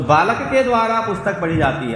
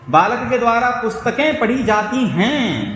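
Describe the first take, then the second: First: Said in the usual way. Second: पुस्तकें and हैं drawn out, pitched higher; stress on plural endings. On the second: Shown as a demonstration. Teacher showing students the plural change, stressed plural endings. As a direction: stretch the endings of पुस्तकें and जाती हैं, slowly. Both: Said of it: "देखो बहुवचन बोला तुमने".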